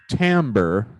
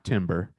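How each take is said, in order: First: It is said unlike the word timber. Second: It is said like the word timber. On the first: The speaker calls it right. "that's how you pronounce it" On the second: The speaker calls it wrong. "not timber"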